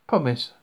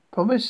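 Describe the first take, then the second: First: "Promise" firmly closed, pitch going down; falling statement. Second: "Promise" as a high questioning echo; rising question. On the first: One character asks for a promise. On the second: The other echoes it as question. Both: A narrator's reading.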